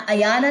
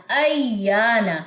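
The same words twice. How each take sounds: First: ایانا with the alif cut short; wrong reading. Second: Very slow ایانا with the alif stretched long; drawn madd. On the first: Teacher showing the wrong ایانا, alif clipped. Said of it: "ایانا نہیں پڑھنا". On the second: Teacher giving the correct ایانا, alif drawn long. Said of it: "الف مدہ کا rule apply ہوگا". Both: Shown as a demonstration.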